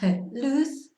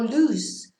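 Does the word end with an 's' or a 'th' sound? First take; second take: th; s. First: It ends with a lisped 'th' sound. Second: It ends with a plain 's' sound. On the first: This is the pronunciation used in Spain. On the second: This is the pronunciation used in South America.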